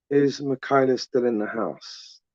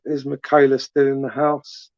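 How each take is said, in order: First: Slow, softer call-out with a falling end; slow repeat. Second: Said in the usual way. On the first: Real, not acted. Live host checks whether a viewer is still watching, slow and softer. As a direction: draw the question out slowly and let it sink.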